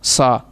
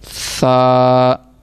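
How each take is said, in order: First: The first sound is a hissing s. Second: The first sound is a soft th. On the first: The speaker calls it wrong. "ये गलत है" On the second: The speaker calls it right. "वहीं वहीं पे जब ज़ुबान लगेगी तो फिर ये सही पढ़ा जाएगा"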